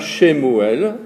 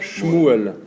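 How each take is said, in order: First: A short vowel separates the first two consonants. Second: The first two consonants run together without a vowel. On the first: The speaker calls it wrong. "on ne dit pas Shemuel" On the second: The speaker calls it right. "on dit Shmuel"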